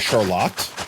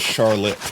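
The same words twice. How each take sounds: First: It is said the Michigan way. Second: It is said the general American way.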